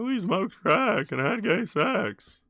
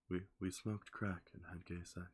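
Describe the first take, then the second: First: It is spoken at a normal, louder volume. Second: It is spoken noticeably more quietly. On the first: "like here's Seinfeld" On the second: "I just talk quieter when I do that impression"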